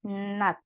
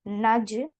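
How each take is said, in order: First: The word ends in a t sound. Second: The word ends in a j sound. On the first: The speaker calls it right. "tapi nat" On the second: The speaker calls it wrong. "Bukan naj"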